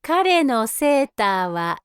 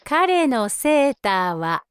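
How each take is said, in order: Both takes have the same delivery.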